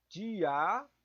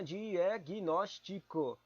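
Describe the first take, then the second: First: Said in the usual way. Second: "diagnóstico" stretched slowly, syllable by syllable; drawn-out syllables. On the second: Shown as a demonstration. Sounding out "diagnóstico" slowly to check its stressed syllable. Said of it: "proparoxítona".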